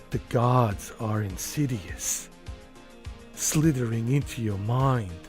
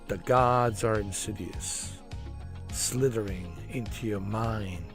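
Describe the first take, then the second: First: It is read in an imitated celebrity voice. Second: It is read in the speaker's normal voice.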